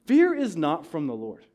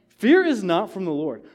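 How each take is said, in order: Both takes have the same delivery.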